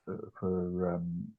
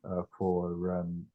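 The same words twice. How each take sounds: The two takes are said the same way.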